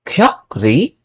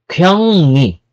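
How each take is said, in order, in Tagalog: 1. Ang gitnang tunog ay k at r. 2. Ang gitnang tunog ay ng at n. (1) "it's not kyokri" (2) "it's kyongni"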